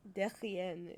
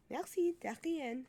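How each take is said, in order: First: Said in the usual way. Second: Slow, drawn-out "Merci, derrière" with "derrière" said in place of de rien; mock French thanks. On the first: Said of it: "weird way of saying". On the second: Shown as a demonstration. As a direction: jokingly say "derrière" for de rien, slowly. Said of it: "weird way of saying "you're welcome".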